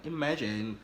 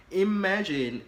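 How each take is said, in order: First: Said in the usual way. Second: "imagine" loud and high, falling away; emphatic repeat. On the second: Real, not acted. Asking the guys listening to imagine, "imagine" said loud and high.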